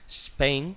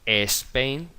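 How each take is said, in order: First: The word starts directly with the S sound. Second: The word starts with a vowel before the S. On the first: The speaker calls it right. "en inglés se dice Spain" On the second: The speaker calls it wrong. "no se dice Spain"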